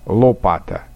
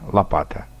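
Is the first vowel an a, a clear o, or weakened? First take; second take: clear o; weakened. First: The first vowel is a clear, distinct o. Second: The first vowel is weak and not highlighted. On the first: This is the Upper Volga way of speaking. "говорят «о» более отчетливо" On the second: This is the most literary, Petersburg way of speaking. "предударное «о» никак не выделяем"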